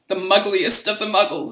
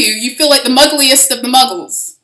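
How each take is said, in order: First: Said in the usual way. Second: Louder, gleeful delivery; punchline said big and bright; amused loud emphasis. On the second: Real, not acted. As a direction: relish the joke out loud. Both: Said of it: "That's pretty fucking funny".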